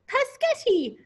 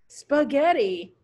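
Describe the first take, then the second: First: The word starts with 'pa', without the 's'. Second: The word starts with 'spa', with the 's'. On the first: A baby doll is mispronouncing the word. The speaker calls it wrong. "pronounce a word wrong" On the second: The child is teaching the doll the correct word. The speaker calls it right. "pronounce the word right"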